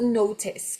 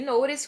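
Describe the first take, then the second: First: Notice said slowly with a clear T, nowtes; British notice, crisp T in the middle. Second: Notice said with a flapped T like an R, nowres; American notice. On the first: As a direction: notice pronounced the British way with a hard T. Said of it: "com T". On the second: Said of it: "com esse R aí de sempre". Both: Shown as a demonstration.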